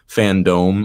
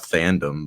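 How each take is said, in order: First: The last syllable sounds like 'dome'. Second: The last syllable sounds like 'dum'. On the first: The speaker calls it right. "It has an E at the end of it" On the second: The speaker calls it wrong. "It's not fandom"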